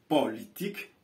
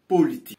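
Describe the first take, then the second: First: The o vowel is open. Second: The o vowel is closed. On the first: The speaker calls it right. "à cause de l'absence de l'accent circonflexe, nous dirons politique" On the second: The speaker calls it wrong. "et non politique"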